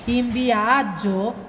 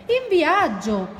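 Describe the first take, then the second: First: IN VIAGGIO drawn out slowly as a question; wondering question. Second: High, drawn-out proclamation; eager announcement. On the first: Ranocchio echoes his friend's answer, wondering question. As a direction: echo "In viaggio" slowly, wondering, at usual pitch. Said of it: "domandò Ranocchio". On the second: Porcospino answers where they are going, eager announcement. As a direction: announce it high and slowly, with relish. Friend announces the trip, pair with question. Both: Acted.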